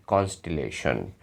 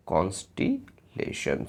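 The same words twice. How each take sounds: First: Said in the usual way. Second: constellation slowly in two parts, pause before lesson; broken into parts. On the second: Shown as a demonstration. Breaks word up after spelling it. (Constellation को धीरे-धीरे, कॉन्स्टे और लेशन में तोड़कर बोलें)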